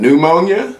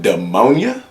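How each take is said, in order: First: "pneumonia" as "new-MOAN-ya?", rising high; correct pronunciation. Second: "Pneumonia" queried as "duh-MOAN-ya?"; mispronounced pneumonia. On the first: He corrects the friend, new-MOAN-ya as a question. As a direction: begin "pneumonia" with a clear "new". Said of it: "it's literally called pneumonia". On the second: He queries the friend's word, duh-MOAN-ya with disbelief. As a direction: echo "Pneumonia" with a D start, rising. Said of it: "you think it's called the ammonia". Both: Retold or imitated.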